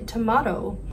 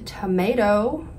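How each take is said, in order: First: It is said the Australian way. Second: It is said the American way. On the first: "versus in Australia, it's a tomato" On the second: "in America, it's a tomato"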